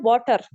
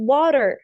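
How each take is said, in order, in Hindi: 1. इसे पाकिस्तानी एक्सेंट में बोला गया है। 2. इसे अमेरिकन एक्सेंट में बोला गया है। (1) "तो वो लोग पढ़ेंगे वाटर, टर पढ़ेंगे ना, गलत है।" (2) "तो हम इसको क्या पढ़ते हैं अमेरिकन में?"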